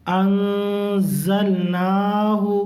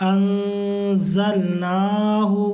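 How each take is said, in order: The two takes are said the same way.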